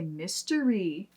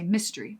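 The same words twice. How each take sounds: First: The word is said slowly, each syllable drawn out. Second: The word is said quickly, at normal speaking speed. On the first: The speaker is telling a joke. "If we slow down because we're telling a joke, we'll say" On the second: The speaker is talking normally. "when we're speaking normally, we just say"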